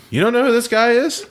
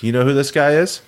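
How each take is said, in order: First: High-pitched, astonished retold question; incredulous question. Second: Lightly acted question, rising at the end; casual question. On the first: Friend reacting to the narrator's no, incredulous and high. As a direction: ask it in utter disbelief. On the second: Friend leaning back to ask about a guy, casual question.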